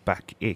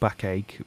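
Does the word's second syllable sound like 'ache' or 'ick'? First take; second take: ick; ache. First: The second syllable sounds like 'ick'. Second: The second syllable sounds like 'ache'. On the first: The speaker calls it right. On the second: The speaker calls it wrong. "Not backache"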